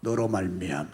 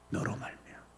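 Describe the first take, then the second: First: Said in the usual way. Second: Barely audible whisper; whispered echo. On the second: Real, not acted. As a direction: hush it to yourself. Whispered repetition. (속삭이듯)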